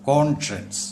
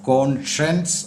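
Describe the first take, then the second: No difference in how they are said.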